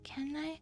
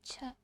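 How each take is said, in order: First: The word begins with a hard k sound. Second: The word begins with a ch sound. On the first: The speaker calls it wrong. "You would think canai" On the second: The speaker calls it right. "It's actually cha"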